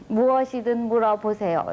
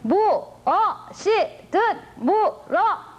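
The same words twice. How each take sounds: First: It is read smoothly, in an ordinary way. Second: It is said forcefully, syllable by syllable.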